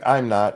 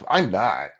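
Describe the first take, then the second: First: It is said plainly, without attitude. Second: It is said with a sassy, proud attitude.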